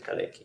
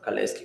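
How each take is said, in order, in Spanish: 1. La consonante antes de la última sílaba no es s. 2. La consonante antes de la última sílaba es una s. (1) "Yo voy a llamarle Kalecki" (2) "a veces le pronuncian Kaleski"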